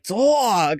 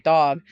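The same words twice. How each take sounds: First: The vowel sounds strongly drawn out and intense. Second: The vowel sounds plain and mild. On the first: This is how it comes out within a sentence. "like very intense" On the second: This is how it comes out when said alone. "If you ask me to say dog, I'll just say dog"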